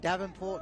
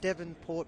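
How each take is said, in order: First: The first syllable is pronounced 'Dav'. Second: The first syllable is pronounced 'Dev'. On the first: The speaker calls it wrong. "I was saying Davenport" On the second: The speaker calls it right. "all the uh, Devonport people, I'm sorry"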